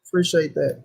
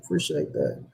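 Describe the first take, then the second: First: Said in the usual way. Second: Mock deep-voiced thanks, much lower and softer. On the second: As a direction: drop the voice way down low and soft for "Appreciate that.". Repeats thanks in two voices.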